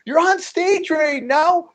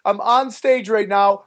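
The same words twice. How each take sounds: First: Drawn-out, very high imitated disbelief; incredulous Joe Rogan. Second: Said in the usual way. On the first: Joe on the phone to a comic mid-set, incredulous. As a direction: repeat it back slowly in mock amazement. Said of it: "He's like".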